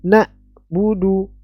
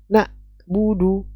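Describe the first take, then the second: No difference in how they are said.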